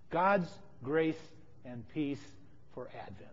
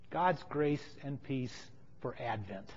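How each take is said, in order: First: "God's grace", pause, "and peace", pause, "for Advent", fading low; blessing with pauses. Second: Slow, hushed blessing in one phrase; quiet, measured benediction; soft blessing. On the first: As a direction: break "God's grace and peace for Advent" into three, sinking to a hush. Same blessing repeated in pieces. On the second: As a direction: offer it softly and unhurried. Solemn blessing, said then repeated. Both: Real, not acted.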